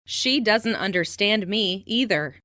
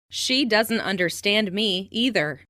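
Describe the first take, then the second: No difference in how they are said.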